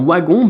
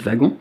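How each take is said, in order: First: The word begins with a w sound. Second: The word begins without a w sound. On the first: "comme un OU" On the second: "sauf si vous dites wagon"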